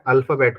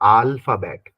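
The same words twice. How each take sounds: First: The first vowel is an English short a. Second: The first vowel is a long open aa.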